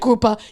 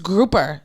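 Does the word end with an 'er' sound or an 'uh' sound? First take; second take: uh; er. First: The word ends in a soft 'uh' vowel. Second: The word ends in a clear 'er' sound. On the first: The speaker calls it wrong. "that soft A" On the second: The speaker calls it right. "they need that E R"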